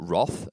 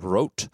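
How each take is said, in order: First: The name is said with an Australian pronunciation. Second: The name is said with a German-style pronunciation. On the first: "as everyone calls it here in Australia" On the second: "I'm not even pronouncing it correctly"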